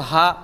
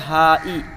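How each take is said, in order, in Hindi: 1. यह शब्द बिना किसी स्वर के ग्लोटल स्टॉप पर ख़त्म होता है। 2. ग्लोटल स्टॉप के बाद i स्वर आता है। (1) "हा के बाद हमज़ा और साकिन होता है" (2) "हा के बाद हमज़ा मकसूरा है"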